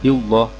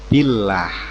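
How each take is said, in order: First: The l is said thick and heavy. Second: The l is said thin and light. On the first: The speaker calls it wrong. "bukan billah" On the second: The speaker calls it right. "tetapi billah ya, tipis"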